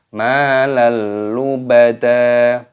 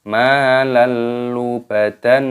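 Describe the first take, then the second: First: The final word ends in a long open vowel. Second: The final word ends with an n sound. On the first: The speaker calls it right. "tapi malal lubada" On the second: The speaker calls it wrong. "jangan dibaca malal lubadan, tidak seperti itu"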